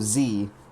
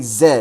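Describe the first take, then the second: First: It is said zee, American style. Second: It is said zed, UK/Australian style.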